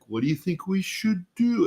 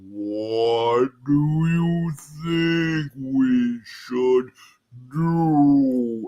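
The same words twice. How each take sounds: First: It is said at a normal speed. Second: It is said very slowly, dragged out.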